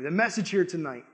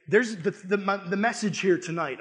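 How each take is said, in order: First: Said in the usual way. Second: Stumbling over the words; stuttering. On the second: Real, not acted. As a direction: trip on the repeated word. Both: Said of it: "I'm stuttering".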